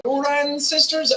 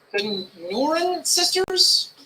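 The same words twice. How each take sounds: First: "Nooran Sisters" again, a bit quicker, "Nooran" as NOO-ran, falling at the end; retry "Nooran Sisters" with a little more confidence; second try at the name. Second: "Nooran Sisters" said slowly, "Nooran" as NOO-ran, rising like a question; unsure pronunciation. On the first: Streamer retrying the band's name, slightly surer pronunciation. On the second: Streamer unsure how to say the band's name, slow tentative pronunciation. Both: Real, not acted. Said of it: "I don't know if I pronounced this right".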